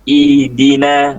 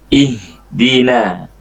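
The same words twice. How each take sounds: First: The h sound is weak and barely heard. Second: The h sound is pressed and clearly heard. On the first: The speaker calls it wrong. "haknya tadi itu hampir tidak terbaca. Kayak ihdina" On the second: The speaker calls it right. "harus ditekan haknya"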